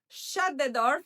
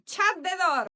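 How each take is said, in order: First: Shut starts with a sh sound. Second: Shut starts with a ch sound. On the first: "to say shut the door" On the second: "we're going to say shut the door"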